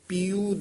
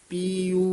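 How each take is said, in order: Both takes have the same delivery.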